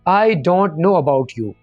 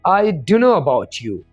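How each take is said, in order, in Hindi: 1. 'Don't know' साफ़-साफ़ पूरा बोला जाता है। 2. 'Don't know' को छोटा करके 'dunno' बोला जाता है। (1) "सिंपल इंग्लिश में बोलेंगे" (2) "अंग्रेजों की तरह फरफर इंग्लिश"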